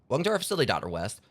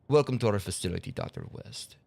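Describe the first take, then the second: First: It is read in the speaker's normal accent. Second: It is read in a put-on Russian accent.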